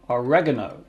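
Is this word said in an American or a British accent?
American. It is said in an American accent.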